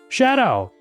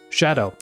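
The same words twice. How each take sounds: First: It is said in a put-on character voice. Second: It is said in the speaker's normal voice. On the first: "that's not a good voice" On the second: "let's just read"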